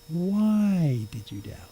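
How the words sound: It sounds like a sincerely curious, probing question.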